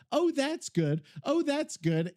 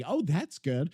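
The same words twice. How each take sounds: First: Higher, sing-song repeat of oh that's good; lightly hammed self-imitation; mock pleased self-quote. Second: Said in the usual way. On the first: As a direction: imitate himself cooing approval. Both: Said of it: "You hear me say".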